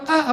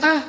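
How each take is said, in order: First: It sounds like an exasperated, grumbling complaint. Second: It sounds like a cry of pain from a pinch.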